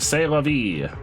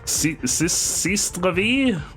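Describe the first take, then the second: First: The first word sounds like 'say', with no s. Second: The first word sounds like 'cease', ending in s. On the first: The speaker calls it right. "it's not ceased. It's say" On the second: The speaker calls it wrong. "I was pronouncing it like the way that it looks like it should be pronounced"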